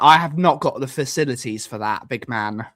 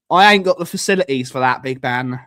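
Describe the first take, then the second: First: Said in the usual way. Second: Quick mock-street "ain't got" delivery; casual slang. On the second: Shown as a demonstration. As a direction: toss it off fast like a mate. Redoes line in slang form.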